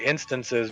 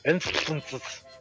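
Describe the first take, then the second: First: The s sounds are said as plain s. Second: The s sounds are said like th. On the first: "he doesn't say instances" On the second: "because he's overdoing his ths. He says instances"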